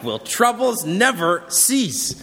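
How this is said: It is asked in an exasperated tone. The speaker is fed up with constant troubles.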